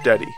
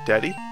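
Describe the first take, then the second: First: The pitch falls flatly at the end. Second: The pitch rises at the end like a question. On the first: The speaker calls it wrong. "not just Daddy" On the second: The speaker calls it right. "You have to pronounce it as a question?"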